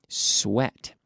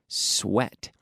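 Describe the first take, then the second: The two takes are said the same way.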